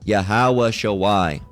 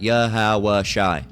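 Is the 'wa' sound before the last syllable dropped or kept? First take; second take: kept; dropped. First: A 'wa' sound comes before the final syllable. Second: No 'wa' sound comes before the final syllable. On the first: The speaker calls it wrong. "That's not how, um, in proper, you know, Hebrew grammar, it would be pronounced" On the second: The speaker calls it right. "the uh, W A gets dropped from that as well"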